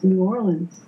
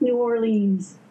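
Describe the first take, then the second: First: New Orleans is pronounced the way locals say it. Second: New Orleans is pronounced the way a Yankee says it. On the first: The speaker is from the city. The speaker calls it right. "It's pronounced New Orleans" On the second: The speaker is an outsider to the city. The speaker calls it wrong. "I came in here as a Yankee and I said"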